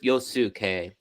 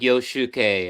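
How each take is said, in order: First: The middle consonant is a plain 's' sound. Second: The middle consonant is an 'sh' sound. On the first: The speaker calls it right. "but just Yosuke" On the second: The speaker calls it wrong. "some people add the H, so it turns into like Yoshuke"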